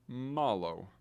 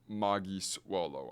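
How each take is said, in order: First: It is said as one contracted word. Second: It is said as two full words. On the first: The speaker calls it right. "They say malo" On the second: The speaker calls it wrong. "they don't say uh, magis wolo"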